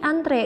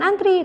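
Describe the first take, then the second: First: The word ends with an 'ay' vowel. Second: The word ends with an 'ee' vowel. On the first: The speaker calls it right. "tapi antre, dan dibacanya juga antre" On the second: The speaker calls it wrong. "bukan antri"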